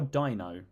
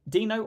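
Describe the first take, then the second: First: The first vowel sounds like 'eye'. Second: The first vowel sounds like 'ee'. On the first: "D I" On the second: "D E"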